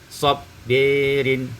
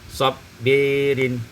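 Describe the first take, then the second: First: The vowel after b leans toward e. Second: The same.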